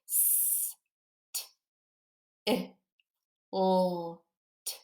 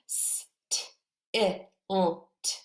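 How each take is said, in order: First: The sounds are said slowly, one by one. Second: The sounds are said more quickly together. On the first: "let's look at each sound as we sound every part of this out" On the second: "Let's do it a little quicker this time"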